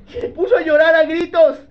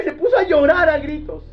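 First: Higher, louder, stressing puso; loud emphatic. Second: Loud emphatic reading. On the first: Preacher to the congregation, loud emphatic retelling. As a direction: hammer home that he wept aloud. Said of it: "repeat, louder". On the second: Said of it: "voicing the weeping". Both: Acted.

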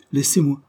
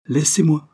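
First: Stern, lightly raised "Laissez-moi"; grave and hard. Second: "Laissez-moi" louder and higher, falling hard; harsh command. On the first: Paul warning Madame Beck, grave and hard. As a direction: lay down a firm warning. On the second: Paul ordering Madame Beck away, loud harsh command. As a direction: bark it as a final order. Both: A narrator's reading. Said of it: "répondit gravement et durement".

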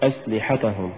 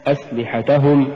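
First: "أسلحتهم" softer, ta left weak and falling away; mispronounced أسلحتهم. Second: "أسلحتهم" with a gentle push on ta before hum; correct أسلحتهم. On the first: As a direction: say أسلحتهم with no push on the ta. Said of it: "ولا تقل". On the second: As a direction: lift the ta of أسلحتهم into the ending. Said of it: "نحو". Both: Shown as a demonstration.

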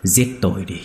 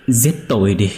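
First: Said in the usual way. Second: Louder plea. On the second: Acted. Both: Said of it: "thều thào không ngừng cầu xin".

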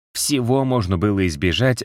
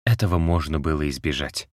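First: Всего lifted higher and leaned on; emphatic correction, Всего stressed high. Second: Said in the usual way. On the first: A narrator's reading. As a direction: hit the word Всего hard, raising the pitch. Repeats it, widening to everything.

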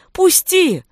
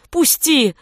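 First: Much higher, louder cry; louder desperate cry. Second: Desperate cry. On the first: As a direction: scream it even harder. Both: A narrator's reading. Beating on door, pleading.

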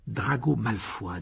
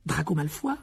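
First: "Drago Malfoy" slow, with falling tune; "Drago Malfoy" drawn out, dropping at the end; slow statement. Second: "Drago Malfoy" rising into a question; "Drago Malfoy" lifted at the end; questioning repeat. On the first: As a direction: state "Drago Malfoy" slowly as a settled answer. Name given as an answer. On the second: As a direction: echo "Drago Malfoy" higher, asking. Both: Acted.

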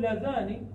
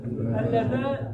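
First: لذان said with a single short n; without doubled n. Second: اللذان said slowly with a doubled, held nun. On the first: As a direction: say لذان with the nun not doubled. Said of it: "بدون تشديد النون". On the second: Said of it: "أي بتشديد ماذا؟ النون". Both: Shown as a demonstration.

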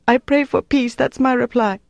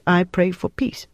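First: Very high, distressed woman's voice; desperate reply. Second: Said in the usual way. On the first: A narrator's reading. Prisoner giving her interrogator the last answer, desperate reply. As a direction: blurt out the answer, pitched high in anguish.

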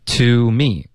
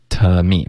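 First: Said in the usual way. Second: "To me" with "To" reduced to tuh; weak to. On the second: Shown as a demonstration. Teacher showing learners the weak form, reduced "To me". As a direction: say "To" as an unrounded tuh before "me". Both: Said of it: "我们弱读为T".

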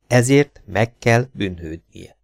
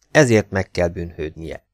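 First: Slow, each word set apart; deliberate pauses between "Ezért", "meg kell" and "bűnhődnie"; slow, weighty repeat. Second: Said in the usual way. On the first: A narrator's reading. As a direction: spell out the verdict word by word, slowly. Thought repeated slowly, word by word.

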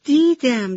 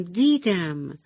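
First: High, bright burst on دیدم; excited. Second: Said in the usual way. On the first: Acted. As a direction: throw دیدم up high with glee. Little cloud answers, laughing.

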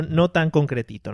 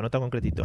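First: Slow, stressed "no tan concretito"; emphatic. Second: Said in the usual way. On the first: Shown as a demonstration. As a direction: drag out "no tan concretito" slowly. ("no tan concretito" lento y enfático)

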